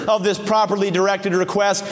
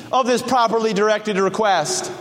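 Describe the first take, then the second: No difference in how they are said.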